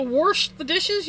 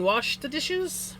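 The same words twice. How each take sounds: First: "wash" said as "warsh"; wash with an added R. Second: Said in the usual way. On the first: Shown as a demonstration. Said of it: "My mother-in-law says wash too". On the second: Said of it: "You mean wash the dishes?".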